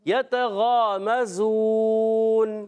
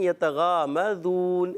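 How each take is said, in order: First: The z sound is sharp, with a whistle. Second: The z sound is soft, with no whistle. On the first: The speaker calls it right. "ये जा की अदायगी सीटी" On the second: The speaker calls it wrong. "बाज़ बच्चे पढ़ देते हैं यतगामज़ून, ज़ाल पढ़ देते हैं, तो ये गलत है।"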